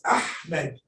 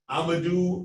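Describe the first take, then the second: First: The name is said with the h sound. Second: The name is said without the h sound. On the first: The speaker calls it right. "It's Ahmed" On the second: The speaker calls it wrong. "they're omitting the ha"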